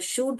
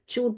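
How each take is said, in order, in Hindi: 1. यह शब्द sh की आवाज़ से शुरू होता है। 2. यह शब्द ch की आवाज़ से शुरू होता है। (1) "श डालेंगे तो शूट हो जाएगा" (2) "च डालेंगे तो चूट हो जाएगा"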